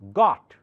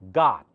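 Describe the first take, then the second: First: The vowel is a rounded aw sound. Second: The vowel is a more open ah sound. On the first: "This is the si symbol for aw sound" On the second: "Americans say it with more open ah"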